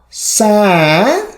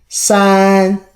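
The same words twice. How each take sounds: First: It is said with the third tone. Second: It is said with the first tone.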